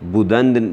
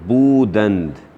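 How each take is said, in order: First: The first vowel is short and reduced. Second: The first vowel is long and clearly pronounced. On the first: The speaker calls it wrong. "जैसे आप पढ़ रहे हैं इस तरह वो नहीं पढ़ते" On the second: The speaker calls it right. "वाओ या अलिफ होता है तो इसको वो बड़ा वाज़ेह करके पढ़ते हैं"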